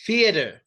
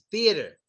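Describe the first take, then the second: First: "Theater" starting with F, like "fee-uh-der"; wrong F sound. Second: "Theater" starting with a clear TH; tongue between teeth to start "Theater"; TH sound. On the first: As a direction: swap the TH in "Theater" for F. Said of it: "no F". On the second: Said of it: "It's a T H". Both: Shown as a demonstration.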